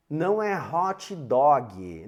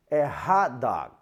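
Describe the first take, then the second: First: "hot dog" as hotchy doggy with extra vowels; mock Brazilian pronunciation. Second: Said in the usual way. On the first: Shown as a demonstration. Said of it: "Tá errado falar assim em inglês".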